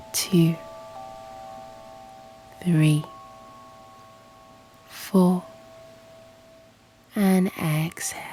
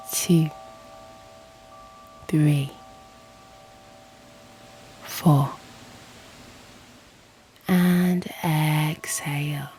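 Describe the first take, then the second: No difference in how they are said.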